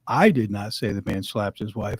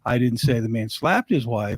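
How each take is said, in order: First: The word "I" carries the main stress. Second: The word "slapped" carries the main stress. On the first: Someone else said it. "inferring that somebody else said it, not him" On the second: He did something else to her, not slapping. "He scolded her, but he didn't slap her"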